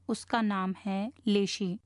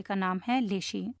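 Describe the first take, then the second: First: Slow, measured repeat with لیشی set out clearly; deliberate repetition. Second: Said in the usual way. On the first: Shown as a demonstration. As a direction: repeat it slowly so that the name لیشی sinks in. (ٹھہر ٹھہر کر دہراتے ہوئے، لیشی نام واضح) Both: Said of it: "میں آپ کے لیے دہرا دوں".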